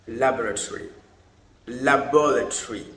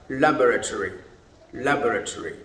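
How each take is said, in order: The two takes are said the same way.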